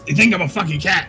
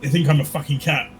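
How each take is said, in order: First: It is said in a put-on character voice. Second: It is said in the speaker's normal voice.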